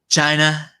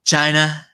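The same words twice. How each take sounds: First: The word has an imitated, unusual pronunciation. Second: The word has an imitated, unusual pronunciation.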